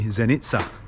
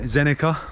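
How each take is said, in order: First: The name is pronounced the local way. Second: The name is pronounced as an English reader would. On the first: The speaker calls it right. "but it's actually Zenica" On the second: The speaker calls it wrong. "that is how I read it and pronounce it, being English"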